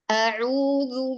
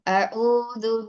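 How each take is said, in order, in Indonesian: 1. Vokal 'u'-nya penuh, dengan bibir membulat dan dimajukan. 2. Vokal 'u'-nya malas dan tidak dibulatkan penuh. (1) "Kita ulangi lagi" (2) "Jangan males, jangan a'udzu billah, enggak"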